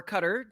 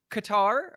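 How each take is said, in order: First: "Qatar" as CUT-er; cutter-like pronunciation. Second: "Qatar" rhyming with guitar; guitar-rhyming pronunciation. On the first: Offering the fussier option, "Qatar" as CUT-er. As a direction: say "Qatar" like "cutter", stressed on the first syllable. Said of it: "rhymes with guitar rather than Qatar". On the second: Giving listeners the two options, "Qatar" as kuh-TAR. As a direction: say "Qatar" as kuh-TAR, stressed on the second syllable. Depending on how fucking obsequious you are. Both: Shown as a demonstration.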